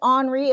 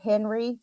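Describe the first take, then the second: First: The name is pronounced the French way. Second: The name is pronounced the English way. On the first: "You can call it Henri if you're French" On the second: "I call it Henry"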